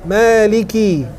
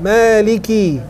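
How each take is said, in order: First: The k is followed by an i vowel. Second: The same.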